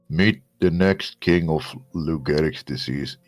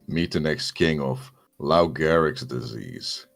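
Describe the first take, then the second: First: It is said with half the face held, distorted. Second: It is said in his natural voice.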